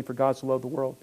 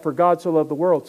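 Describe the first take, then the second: First: Said in the usual way. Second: "For God so loved the world" said louder, weighing "God"; emphatic quote. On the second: Shown as a demonstration. Pastor urging congregation to ponder John three sixteen, louder emphasis. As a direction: lean into "God". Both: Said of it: "Think about that".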